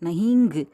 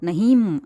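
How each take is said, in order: First: The word ends with an added 'ngu' syllable. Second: The word ends with a full m consonant. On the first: "அப்படியெல்லாம் சொல்லக்கூடாது" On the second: "அப்படியெல்லாம் சொல்லக்கூடாது"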